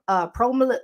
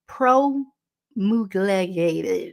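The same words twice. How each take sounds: First: Said in the usual way. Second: Promulgated dragged out very slowly in a Baltimore accent. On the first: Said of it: "the Baltimore accent". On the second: Shown as a demonstration. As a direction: stretch promulgated syllable by syllable, Baltimore-style. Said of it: "blah, blah, the Baltimore accent".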